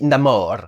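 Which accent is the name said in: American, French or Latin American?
Latin American. The name is said with a Latin American accent. This is how the character himself says it. "comme il est latin, il dit Namor"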